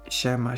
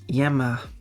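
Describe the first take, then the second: First: The word begins with a 'sh' sound. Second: The word begins with a 'y' sound. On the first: "in Argentina, we pronounce the Y and L L as the sh" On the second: "the Y letter and L digraph are pronounced as an I"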